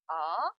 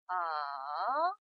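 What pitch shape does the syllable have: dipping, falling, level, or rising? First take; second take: rising; dipping. First: The pitch rises quickly from mid to high. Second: The pitch dips low, then rises again. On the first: "미에서 솔로 단숨에 올라가는 음이에요" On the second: "레에서 도로 내려왔다가 파까지 올라가죠"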